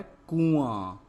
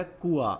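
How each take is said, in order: First: कुआं loud and drawn out, vowels through the nose; कुआं stretched with a nasal ring; nasalized vowel. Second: कुआं with purely oral vowels, no nasal; कुआं said as "kua"; missing nasal. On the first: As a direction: put the chandrabindu nasal into कुआं. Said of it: "क्या होता है". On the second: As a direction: drop the chandrabindu nasal from कुआं. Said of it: "तो कुआं नहीं होता". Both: Shown as a demonstration.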